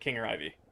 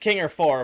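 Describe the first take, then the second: First: The ending is said as two separate letters. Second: The ending is said as the number four. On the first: "but I pronounce it King or I V" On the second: "It's King or four"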